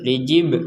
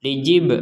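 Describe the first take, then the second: The two takes are said the same way.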